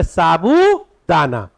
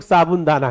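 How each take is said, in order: First: "साबूदाना" slowly, with a long drawn-out oo and no n; correct pronunciation. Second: "साबुन दाना" with a short u and an added n; common mispronunciation. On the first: Teacher correcting the name for students, drawn-out "साबूदाना". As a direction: stretch the boo in "साबूदाना". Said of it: "उसका नाम है". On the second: Teacher quoting what many people call it, mispronounced "साबुन दाना". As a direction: say "साबुन दाना", like the word for soap. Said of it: "कई लोग साबुन दाना कहते हैं". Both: Shown as a demonstration.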